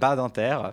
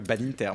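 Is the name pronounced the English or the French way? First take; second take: French; English. First: The name is pronounced with a French accent. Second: The name is pronounced with an English accent. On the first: "on va le faire à la France" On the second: "à l'English"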